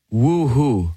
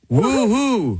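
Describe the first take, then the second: First: It is said slowly and calmly. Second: It is said with more energy and pizzazz.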